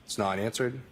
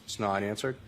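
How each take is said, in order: Both takes have the same delivery.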